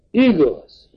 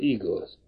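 First: High, loud shocked exclamation of Igaz; uncle cries out. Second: Said in the usual way. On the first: A narrator's reading. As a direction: throw Igaz out as a startled cry. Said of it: "kiáltott fel a nagybácsi". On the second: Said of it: "mondta K".

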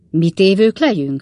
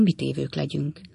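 First: Louder, energetic echo question; harsány visszakérdezés. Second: Softer, helpless dropping line; tanácstalan halkság. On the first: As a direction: throw it back forcefully. A házigazda harciasan visszakérdez. (hangos, lendületes visszakérdezés) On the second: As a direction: let it sink away, at a loss. Rémült Pickwick tanácstalanul beszél. (halkan, tanácstalanul) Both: A narrator's reading.

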